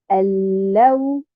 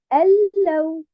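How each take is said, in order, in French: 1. L'accent tombe sur la deuxième syllabe. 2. L'accent tombe sur la première syllabe. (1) "je mets euh, bien sûr un nabre sur harakat al-lam" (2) "Je ne la garde pas uniquement sur harakat al-hamza"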